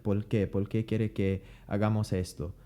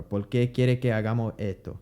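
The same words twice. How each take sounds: First: Por qué said pol qué, s dropped, Puerto Rican accent; relaxed Puerto Rican Spanish with l for r. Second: Por qué with l for r and no s, Puerto Rican accent; quick Puerto Rican speech; Puerto Rican Spanish. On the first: Teacher demonstrating Puerto Rican Spanish. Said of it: "pronounce the R's like L's". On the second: Teacher repeating the Puerto Rican sentence. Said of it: "you don't aspirate". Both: Shown as a demonstration.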